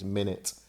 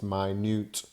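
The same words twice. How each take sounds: First: Pronounced as the word meaning sixty seconds. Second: Pronounced as the word meaning very small. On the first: It refers to a unit of time. "when you're talking about time, as in seconds and minutes, it's minute" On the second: Something is very small. "when something is very small, it's minute"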